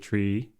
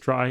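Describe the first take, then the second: First: The word rhymes with see. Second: The word rhymes with sky. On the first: It echoes the middle syllable of retrieval. "pronouncing it tree after the middle syllable of retrieval" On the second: It keeps the word apart from the ordinary word tree. "other authors pronounce it as try"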